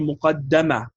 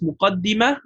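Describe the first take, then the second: First: The vowel after the double d is 'a'. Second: The vowel after the double d is 'i'. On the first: "Both of them are correct" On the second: "Both of them are correct"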